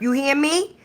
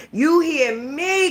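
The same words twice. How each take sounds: First: Said in the usual way. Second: "You hear me?" slow, higher, hitting "you" hard; slow, pointed stress. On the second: Shown as a demonstration. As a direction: press the viewer with "you".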